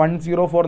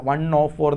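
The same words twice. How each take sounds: First: "വൺ സീറോ ഫോർ" with the middle digit as zee-ro; zero spoken in full. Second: "വൺ ഓ ഫോർ" with the middle digit as oh; zero pronounced as oh. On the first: Teacher asking how 104 is pronounced, zero spoken in full. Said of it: "എങ്ങനെയാണ് pronounce ചെയ്യുക". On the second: Teacher correcting how 104 is said, zero pronounced as oh. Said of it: "അല്ല, വൺ ഓ ഫോർ എന്നാണ് പറയുക". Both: Shown as a demonstration.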